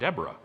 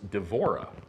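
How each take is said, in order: First: The middle consonant is a B sound. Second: The middle consonant is a V sound. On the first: The speaker calls it wrong. "It's not Deborah" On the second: The speaker calls it right. "The B is a V"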